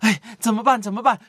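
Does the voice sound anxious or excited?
anxious. It is said in an anxious, worried way. "都是焦虑，"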